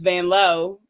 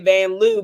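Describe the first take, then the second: First: The surname ends with an 'oh' vowel. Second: The surname ends with an 'oo' vowel. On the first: The speaker calls it right. "but it's Van Lowe" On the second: The speaker calls it wrong. "we've been saying it wrong. We say Van Loo"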